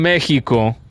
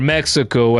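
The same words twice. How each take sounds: First: The name is said with a Spanish pronunciation. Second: The name is said with an American pronunciation.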